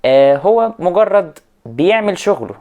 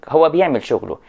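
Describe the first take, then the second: First: Slow and heavy stress on هو, louder and higher; scornful weight on هو; emphatic. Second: Said in the usual way. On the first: Real, not acted. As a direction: lean hard on هو مجرد بيعمل شغله. Dismissive stress on teacher.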